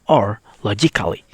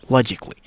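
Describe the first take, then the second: First: The A in the ending is sounded. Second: The A in the ending is silent. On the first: The speaker calls it wrong. "You not read it like" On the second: The speaker calls it right. "the letter A is silent"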